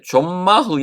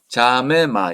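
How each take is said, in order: First: No vowel is heard after the first m. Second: An e vowel is heard after the first m. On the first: The speaker calls it wrong. "이렇게 발음하는 게 아니고" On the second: The speaker calls it right. "이렇게 발음을 해야 되고"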